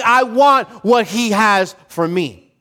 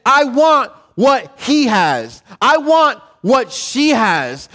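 First: Slower, settled "for me"; content attitude. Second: Slow, grasping "I want what he has"; envious attitude. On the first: Preacher voicing a believer at peace, slow and content. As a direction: say it like someone at peace with God's portion. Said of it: "as opposed to saying". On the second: Preacher voicing a jealous believer, slow and grasping. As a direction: drag out the wanting like a jealous heart. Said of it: "the attitude that says". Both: Retold or imitated.

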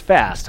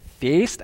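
First: Said in the usual way. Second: Put-on "feast" as a tentative try at the old vowel; unsure Old English pronunciation. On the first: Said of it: "it's just fast". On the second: Shown as a demonstration. Preacher guessing at an Old English word, "feast" tried out unsurely. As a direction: say "feast" with a long, uncertain vowel. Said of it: "don't really know how to pronounce".

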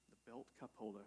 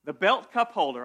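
First: Much softer, trailing repeat of "The belt cup holder"; deflated mutter. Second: Louder, punchy product announcement; mock sales pitch. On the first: Pretend. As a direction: say it again to yourself as the idea fizzles. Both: Pitching a silly product idea.

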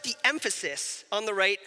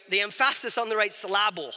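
First: Said in the usual way. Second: "emphasis" said em-FASS-is, "syllable" sil-LAB-le; comic wrong-syllable stress on "emphasis" and "syllable"; joking misplaced stress. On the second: Shown as a demonstration.

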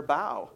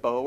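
First: "bow" with an ow vowel; "bow" rhyming with cow. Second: "Bow" with an oh vowel; "Bow" rhyming with go. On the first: Teacher shows one spelling's meanings, "bow" as bau. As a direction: say "bow" as in bending at the waist. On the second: Teacher shows one spelling's meanings, "Bow" as boh. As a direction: say "Bow" as in bow and arrow. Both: Shown as a demonstration. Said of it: "Lots of meanings for those".

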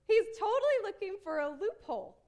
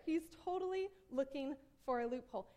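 First: High, loud emphatic call-out; gleeful exposing. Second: Said in the usual way. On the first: Real, not acted. Preacher exposing the lawyer's trick, emphatic. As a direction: pounce on it, pitched up and loud.

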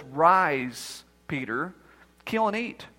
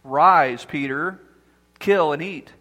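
First: Lower, hushed divine command; voice of the Lord. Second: Deep, louder voice of God calling down; loud voice from heaven. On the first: The Lord commanding Peter in a low, hushed voice. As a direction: speak it low and soft like God from above. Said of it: "a voice from heaven commanded by the Lord says". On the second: God commanding Peter from heaven, loud and low. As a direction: boom it down like a voice from heaven. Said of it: "there came a loud voice". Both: Acted.

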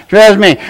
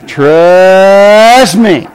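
First: Said in the usual way. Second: TRUST stretched long on a rising glide; drawn-out warning. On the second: Retold or imitated. Father warning his son about a relationship, drawn-out warning. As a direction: draw out TRUST slowly, then drop onto me.

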